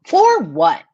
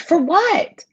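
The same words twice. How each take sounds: First: Said in the usual way. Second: High incredulous For what. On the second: Real, not acted. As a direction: ask it in high disbelief. Incredulous repeat.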